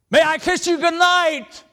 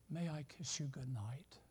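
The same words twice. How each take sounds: First: It is said loudly, close to shouting. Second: It is said very softly and quietly. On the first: He no longer cares who hears. "He didn't care if Dad heard it or not" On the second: He hopes not to be overheard. "in a very soft voice"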